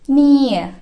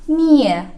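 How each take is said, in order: The two takes are said the same way.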